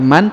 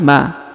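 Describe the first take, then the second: First: The syllable ends with an n sound. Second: The syllable ends with a long vowel. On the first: The speaker calls it wrong. "bukan lagi man" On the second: The speaker calls it right. "tapi ma"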